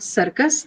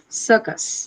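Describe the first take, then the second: First: The second syllable has a full vowel. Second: The second syllable has a reduced schwa vowel. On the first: The speaker calls it wrong. "not circus" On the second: The speaker calls it right. "after the sir, the first sir, sir sound, you hear ... the sound uh"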